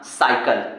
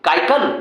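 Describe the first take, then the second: First: The word begins with an s sound. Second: The word begins with a k sound. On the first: The speaker calls it right. "साइकिल पढ़ोगे" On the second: The speaker calls it wrong. "काइकल ना"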